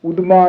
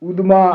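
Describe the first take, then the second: The two takes are said the same way.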